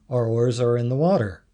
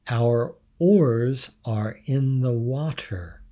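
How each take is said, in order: First: The phrase is said with vowels clipped away. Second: The phrase is said with full, clear vowels. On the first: This is how locals say it. "would be our oars are in the water. R" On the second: This is how outsiders say it. "another example, our oars are in the water"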